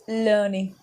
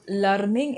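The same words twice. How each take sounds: First: Learning said slowly as LUR-ning; correct pronunciation. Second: Learning said LAR-ming, open a; wrong pronunciation. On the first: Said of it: "it's learning". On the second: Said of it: "it's not learning". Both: Shown as a demonstration.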